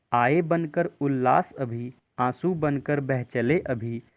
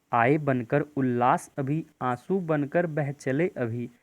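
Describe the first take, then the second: The two takes are said the same way.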